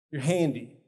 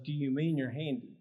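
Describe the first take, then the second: First: Handy said with a falling statement tune; reflective statement. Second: Mean stressed, asked as a question; internal question. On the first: Trainer reflecting the volunteer's words back. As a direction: state it, don't ask. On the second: Trainer voicing the hidden question to the class. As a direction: voice the question behind the reflection. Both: Shown as a demonstration. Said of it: "that came from a question of".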